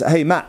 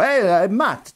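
First: It is said with an English accent. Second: It is said with an Italian accent. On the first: "me reading in my head in an English accent" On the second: "I was going to do an Italian accent"

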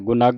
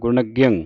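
First: The word ends in a bare 'g' sound. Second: The word ends in a nasal 'ging' syllable. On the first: The speaker calls it wrong. "ਗੁਨਗ ਨਹੀਂ ਪੜ੍ਹਨਾ" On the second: The speaker calls it right. "ਇਸ ਦਾ ਉਚਾਰਨ ਹੈ ਗੁਨਗਿੰ"

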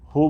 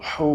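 First: The h is a plain, light breath. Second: The h is pressed tightly from the throat. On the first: The speaker calls it wrong. "হু বলতেছি না" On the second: The speaker calls it right. "কিন্তু হু বলতেছি"

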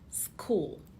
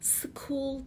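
First: The s joins the k directly. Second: A vowel separates the s from the k. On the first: The speaker calls it right. "İlk harfin sadece sesini veriyorsunuz" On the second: The speaker calls it wrong. "School değil"

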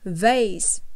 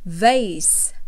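First: The word is said in an American accent. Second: The same.

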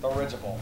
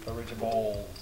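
First: The word ends with a 'ble' sound. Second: The word ends with a 'bold' sound. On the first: The speaker calls it right. "There you go" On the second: The speaker calls it wrong. "There's no bold, it's Dirigible"

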